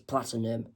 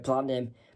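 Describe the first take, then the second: First: It is said in a British accent. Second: It is said in an American accent. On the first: "as people usually in the U K" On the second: "pronounced in the American way"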